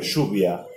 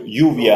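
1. A szó 'sh' hangzóval kezdődik. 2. A szó 'y' hangzóval kezdődik. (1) "hanem suvia" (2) "nem mondjuk juvia"

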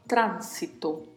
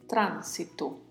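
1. A primeira vogal a é aberta. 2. A primeira vogal a é aberta.

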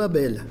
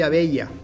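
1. El nombre se dice a la manera del portugués brasileño. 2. El nombre se dice a la manera del español cubano. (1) "no Brasil, eu sou Abella" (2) "En Cuba soy Abella"

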